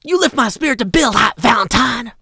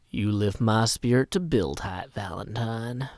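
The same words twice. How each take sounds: First: High, loud, rapid outburst; over-the-top valentine. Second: Low, soft voice fading to a whisper; hushed valentine. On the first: Sixth take, high loud valentine. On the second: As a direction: murmur it low, like an intimate sweet nothing. Third take, soft low valentine. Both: Acted.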